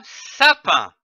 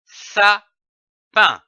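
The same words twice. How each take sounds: First: Said in the usual way. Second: SAPIN broken into two beats, with a clear pause between; split into syllables. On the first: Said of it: "donne le mot". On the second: Shown as a demonstration. Teacher joining two syllables for learners, split into syllables. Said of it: "L'association de ces deux syllabes".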